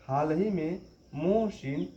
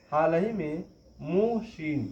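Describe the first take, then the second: No difference in how they are said.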